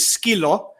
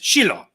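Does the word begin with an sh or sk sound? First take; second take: sk; sh. First: The word begins with an sk sound. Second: The word begins with an sh sound. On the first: This is the mainland Greek form. "a dog in Greek is skilo" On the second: This is the Cypriot form. "in Cyprus it's shilo, like sh"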